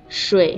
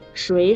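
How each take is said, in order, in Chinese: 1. 这个音节是低降调。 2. 这个音节是升调。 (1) "水是三声" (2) "水是二声呀"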